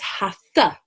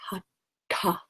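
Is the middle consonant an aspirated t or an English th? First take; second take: English th; aspirated t. First: The middle sound is a soft English th. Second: The middle sound is a breathy t, tongue raised. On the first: The speaker calls it wrong. "surely th is pronounced the, so it becomes hatha" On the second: The speaker calls it right. "put your tongue to the roof of your mouth, ta, and make the sound from that point"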